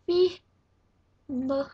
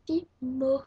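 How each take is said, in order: First: Fimo called out louder and higher, stretched long; drawn-out emphatic name. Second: Said in the usual way. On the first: Shown as a demonstration. Vlogger announcing today's topic, Fimo, stretched and loud.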